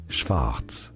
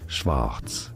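First: It is said with a German pronunciation. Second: It is said with a German pronunciation.

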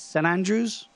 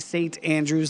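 First: The T sound in 'Saint' is dropped. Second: The T sound in 'Saint' is pronounced. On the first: This is how the locals say it. "They don't say it with the T" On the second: This is how outsiders say it. "We say St. Andrews, and they probably cringe"

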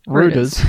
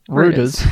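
First: It is said with an Australian pronunciation. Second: It is said with an Australian pronunciation.

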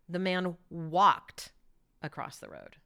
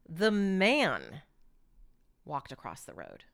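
First: The word walked is stressed. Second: The word man is stressed.

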